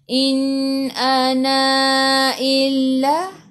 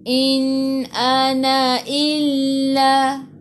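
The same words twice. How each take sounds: First: The final vowel of ana is held long. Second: The final vowel of ana is kept short. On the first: The speaker calls it wrong. "Jangan pula kita baca in ana illa. Ha, tak boleh, salah" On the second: The speaker calls it right. "ana ni satu harakat sahaja"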